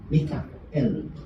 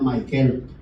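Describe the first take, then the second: First: The name is said as Mi-ka-el, Hebrew-style. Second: The name is said the familiar English way. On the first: The speaker calls it right. "Mika yan, yes. Mikael" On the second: The speaker calls it wrong. "nasanay tayo na kapag nakita mo yung Michael, pinupronounce mo siya na Michael"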